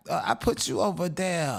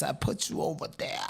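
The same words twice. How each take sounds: First: Said in the usual way. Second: Breathy near-whisper, much softer, almost secretive; half-whispered aside. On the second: Real, not acted. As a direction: drop it to a sly whisper as an aside. Gleeful aside repeat.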